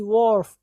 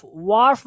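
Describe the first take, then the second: First: वार्फ with a rounded "or", like "worf"; correct pronunciation. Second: वार्फ with an open "ar" vowel; mispronunciation. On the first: Teacher giving students the corrected vowel, correct pronunciation. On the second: Teacher rejecting a wrong reading for students, mispronunciation. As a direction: say वार्फ like "waarf", the mistaken way. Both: Shown as a demonstration. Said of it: "वार्फ नहीं".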